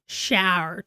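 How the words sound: It is said with a strong Southern drawl. The local accent has rubbed off. "I just said shower to somebody instead of"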